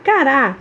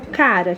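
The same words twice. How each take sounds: First: "Cará" stressed on final RÁ; stress on last syllable. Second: "cara" stressed on CA, light final ra; stress on first syllable. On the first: Tia contrasting the tuber's name, last syllable stressed. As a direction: punch the second syllable of "Cará". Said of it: "eu vou acentuar essa palavra". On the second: Tia contrasting the word for face, first syllable stressed. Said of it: "na hora de se pronunciar". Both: Shown as a demonstration.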